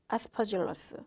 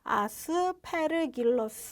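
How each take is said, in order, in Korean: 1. 가운데 자음은 부드러운 j 소리입니다. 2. 가운데 자음은 hard g 소리입니다. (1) "저는 이렇게 발음하는데" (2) "이렇게도 발음해요"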